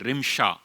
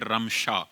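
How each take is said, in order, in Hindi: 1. पहला स्वर छोटी 'i' की आवाज़ है। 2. पहला स्वर खुली 'a' की आवाज़ है। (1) "रे के नीचे जो ज़ेर है ... ये गलत" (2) "रा के साथ ज़बर वाला लफ्ज़ सही लफ्ज़ है"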